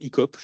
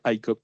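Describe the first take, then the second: First: The acronym is pronounced with French sounds. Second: The acronym is pronounced with English sounds. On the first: "ICOP, j'imagine, en français" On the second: "mais ça doit se dire ICOP probablement"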